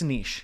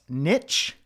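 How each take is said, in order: First: It has a long vowel, ending like 'leash'. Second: It has a short vowel, rhyming with 'itch'. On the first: The speaker calls it right. "no, it's niche" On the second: The speaker calls it wrong. "you might have heard it um, pronounced niche, but I just I can't"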